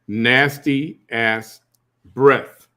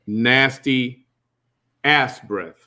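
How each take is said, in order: First: 'Ass' is grouped with 'nasty' before 'breath'. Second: 'Ass' is grouped with 'breath' after 'nasty'. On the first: The breath is very bad. The speaker calls it right. "Let's clarify" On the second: The breath smells like a backside. The speaker calls it wrong. "because ass breath is not good"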